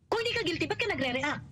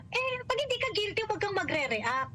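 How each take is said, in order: First: Restating his logic. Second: High, fast mocking parody of the congressman; a sneering imitation of the congressman; mocking quote. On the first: Retold or imitated. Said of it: "If we're going to follow the logic". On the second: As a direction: mimic him with scorn, quick and high. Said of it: "ganyan-ganyan".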